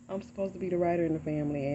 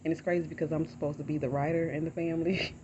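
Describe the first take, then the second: First: Fast, rueful laugh through the words; laughing at herself. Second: Said in the usual way. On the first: Real, not acted. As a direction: laugh it off at her own expense. Repeats own line with a laugh.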